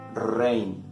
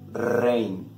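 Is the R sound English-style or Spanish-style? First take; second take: Spanish; Spanish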